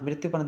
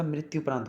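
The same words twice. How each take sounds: First: मृत्यु said "mrityo" before प्रांत; "yo" ending. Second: Said in the usual way. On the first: Shown as a demonstration. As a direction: end मृत्यु on o, not u. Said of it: "नहीं होता". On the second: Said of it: "होता है भाई".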